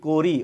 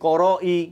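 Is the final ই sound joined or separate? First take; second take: joined; separate. First: The final vowel is joined smoothly to the word. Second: The final vowel is said separately after a break. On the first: The speaker calls it right. "আমি কি বলি করি" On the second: The speaker calls it wrong. "এরকম বলি বলি না তো"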